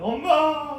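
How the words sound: The call sounds tearful and crying. The child is very afraid the mother is gone. "울면서 이제 어머니를 불렀습니다"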